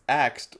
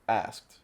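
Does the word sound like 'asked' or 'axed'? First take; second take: axed; asked. First: The s and k sounds are swapped, giving axed. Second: The s comes before the k, giving asked.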